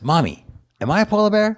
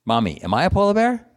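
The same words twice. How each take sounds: First: High-pitched little polar bear cub; small high voice of a baby bear; young cute cub. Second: Put-on high little-kid bear voice; tiny cub asking mommy, high; young cute cub. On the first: Acted. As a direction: ask mommy in a cute, high kiddie voice. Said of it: "This is a young, cute polar bear". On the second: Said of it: "picture a young, cute polar bear".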